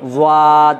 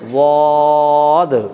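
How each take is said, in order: First: The mouth is stretched long, not rounded. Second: The mouth is kept rounded. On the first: The speaker calls it wrong. "মুখটাকে লম্বা করলেই ... বিকৃত হয়ে যাবে" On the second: The speaker calls it right. "ওই একই রকমভাবে"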